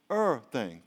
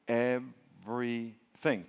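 First: "er thing", everything contracted to two syllables; two-syllable pronunciation. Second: "Everything" very slowly as Ev-ry-thing; three-syllable pronunciation. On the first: Preacher showing the short version, "er thing" in two beats. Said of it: "Two syllables". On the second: Preacher counting syllables, "Everything" in three slow beats. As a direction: break "Everything" into three separate, drawn-out syllables. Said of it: "Three syllables". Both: Shown as a demonstration.

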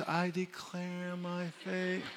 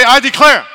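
First: Mock limp, slow and soft "I declare my faith"; weak lazy "I declare my faith"; half-hearted. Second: Loud high "I declare"; full-force "I declare"; declaration. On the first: Shown as a demonstration. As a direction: mumble "I declare my faith" without belief. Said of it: "if you say it like this". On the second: Real, not acted. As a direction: shout "I declare" out.

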